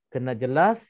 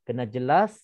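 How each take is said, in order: No difference in how they are said.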